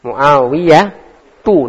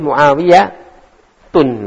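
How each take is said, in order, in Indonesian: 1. Nama itu berakhir dengan vokal u biasa. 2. Nama itu berakhir dengan bunyi n yang ditambahkan. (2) "enggak boleh Muawiyah tun"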